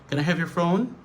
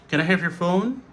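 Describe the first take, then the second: No difference in how they are said.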